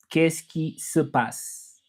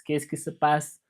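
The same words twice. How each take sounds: First: "qu'est-ce qui se passe" drawn out slowly, each syllable separate; slow French demo. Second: Said in the usual way. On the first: Shown as a demonstration. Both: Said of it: "So I can say ça va in French".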